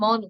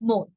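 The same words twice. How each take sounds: First: The vowel is an open 'aw' sound. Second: The vowel is a closed 'o' sound. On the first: The speaker calls it wrong. "অনেকে একে মন উচ্চারণ করেন" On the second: The speaker calls it right. "কিন্তু এর সঠিক উচ্চারণ হবে মন।"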